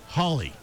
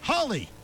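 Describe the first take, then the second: First: The word is said flatly. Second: The word is said excitedly.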